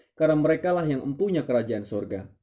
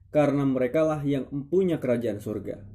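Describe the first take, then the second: Both takes have the same delivery.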